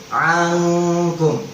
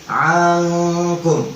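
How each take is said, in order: No difference in how they are said.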